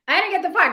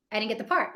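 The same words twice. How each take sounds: First: "I didn't get the part" said higher and louder, with the word "part" hit hard; emphatic. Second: Said in the usual way. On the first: Retold or imitated. Actor retelling his lost role to a friend, emphatic and louder. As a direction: throw the line out big, like a comic punchline. Repeats the punchline, bigger.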